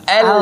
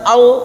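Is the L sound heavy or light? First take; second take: light; heavy. First: The L is said thin, with spread lips. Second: The L is said thick and heavy. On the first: The speaker calls it right. "Jadi di tipis saja sambil senyum" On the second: The speaker calls it wrong. "Bukan al. Al itu tebal"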